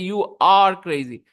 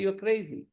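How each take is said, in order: First: The helping verb are is stressed. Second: The helping verb is reduced; crazy is stressed. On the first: The speaker calls it wrong. "You don't say you are crazy. You don't do that" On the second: The speaker calls it right. "You say you're crazy"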